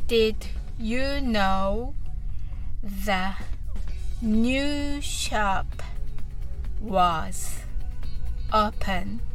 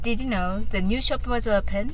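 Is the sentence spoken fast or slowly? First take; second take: slowly; fast. First: The sentence is spoken at a slow pace. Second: The sentence is spoken at a fast pace. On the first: "はじめはゆっくりです。" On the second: "それでは早く言ってみましょう。"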